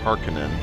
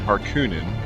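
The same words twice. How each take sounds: First: The middle vowel is a short o sound. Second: The middle vowel is a long oo sound. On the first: The speaker calls it right. "the proper way to say it" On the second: The speaker calls it wrong. "I'm trying to get better about not saying Harkonnen"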